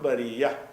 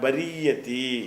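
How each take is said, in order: First: The word ends on a plain long vowel. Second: The word ends with a 'ti' sound. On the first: The reading stops at this word. "இதோட நிப்பாட்டுறோம்னு சொன்னால் பரியா" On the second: The reading continues without stopping. "தொடர்ச்சியாக படித்தா பரியத்திங்கணும்"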